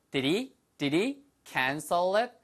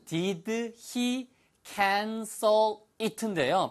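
First: Quicker, words run together; fast linked version. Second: Very slow, word by word, pitched up; slow demonstration. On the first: Teacher showing how it sounds said quickly, fast linked version. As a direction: link it up as in quick speech. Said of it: "빨리 하니까". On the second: Teacher showing learners the phrase slowly, slow demonstration. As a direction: draw out each word of the question separately. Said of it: "천천히 하면". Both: Shown as a demonstration.

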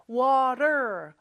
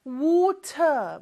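First: North American "water", T as a quick flap; North American accent. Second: British "water", rounded WAW-tuh with crisp T; British accent. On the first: Teacher shows the North American flapped T, American accent. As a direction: say "water" the American way, WAH-der with final R. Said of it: "입천장에 살짝 닿았다가 떨어지는 소리예요". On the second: Teacher shows how Britain says it, British accent. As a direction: say "water" in British English, T sounded, no R. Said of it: "영국에서는 발음을 하기는 해요". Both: Shown as a demonstration.

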